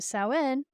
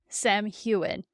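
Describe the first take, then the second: First: The name is said with its Irish pronunciation. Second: The name is sounded out as it is spelled. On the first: The speaker calls it right. "I'm used to Samhain Irish" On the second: The speaker calls it wrong. "pronounces it Sam Hewen, the way it's spelled in the book"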